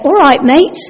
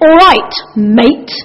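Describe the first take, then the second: First: It is said in a friendly, polite tone. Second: It is said in a hostile, venomous tone. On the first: A genuine, warm greeting. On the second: The greeting hides aggression or resentment.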